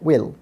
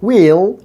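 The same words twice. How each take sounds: First: The vowel is short. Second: The vowel is long. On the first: "or in short sound" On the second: "in a long sound"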